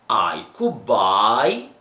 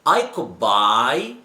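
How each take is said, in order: Both takes have the same delivery.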